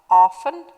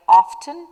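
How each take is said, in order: First: OFTEN said as "offen"; "often", no t after the f; "often" with silent t. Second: OFTEN said as "off-ten"; "often", t clearly pronounced; "often" with the t sounded. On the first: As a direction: drop the t in "often". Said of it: "and some like often". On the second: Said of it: "Some people are pronouncing it like often". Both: Shown as a demonstration.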